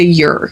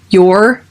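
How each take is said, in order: First: The word is said in a reduced form. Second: The word is said in its full form. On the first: "turns to your" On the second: "Your turns to"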